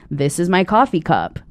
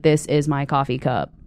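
First: The line is spoken with acted, expressive intonation. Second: The line is spoken flatly in a monotone. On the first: The line is interpreted before meeting the scene partner. The speaker calls it wrong. "you can't, you know, say the line like" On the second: The line is left uninterpreted until the scene. The speaker calls it right. "we had to learn at monotone"

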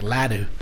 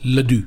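First: The name is said with an American pronunciation. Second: The name is said with a French pronunciation. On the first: The name has been adapted to English. "I Americanized it" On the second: The name keeps its original French form. "It's French"

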